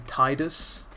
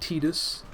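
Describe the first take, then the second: First: The first syllable sounds like the word 'tide'. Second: The first syllable sounds like 'tee'. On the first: The speaker calls it right. "I say Tidus" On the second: The speaker calls it wrong. "instead of fucking Tidus"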